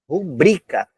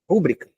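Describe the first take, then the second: First: The stress is on the second syllable. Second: The stress is on the first syllable. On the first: The speaker calls it right. "A sílaba tônica é o bri" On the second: The speaker calls it wrong. "A sílaba tônica não é o ru"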